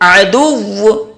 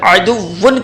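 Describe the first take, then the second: First: The word stops on the doubled w sound. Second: The word ends with a final -an sound. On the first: The reader pauses on this word. "जब आप वक्फ करेंगे तो कहेंगे अदुव्व" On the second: The word is read without stopping on it. "यहां पर अदुव्वन का लफ्ज है"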